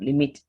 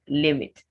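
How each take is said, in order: First: The stress is on the second syllable. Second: The stress is on the first syllable. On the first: The speaker calls it wrong. "The word is not limit at any point in time" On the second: The speaker calls it right. "It's stressed on its first syllable"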